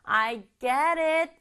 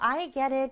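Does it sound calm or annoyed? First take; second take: annoyed; calm. First: It sounds irritated and annoyed. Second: It sounds calm and agreeable.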